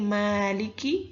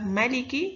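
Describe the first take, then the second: First: The first vowel is held long. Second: The first vowel is kept short. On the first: "yang pertama tadi" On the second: "yang kedua"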